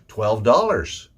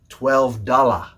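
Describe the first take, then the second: First: The last syllable of dollars is a reduced 'er'. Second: The last syllable of dollars has a full vowel. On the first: The speaker calls it right. "More of an er sound, and remember that S" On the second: The speaker calls it wrong. "stop saying twelve dollars or twenty dollars. That's not the way we say it"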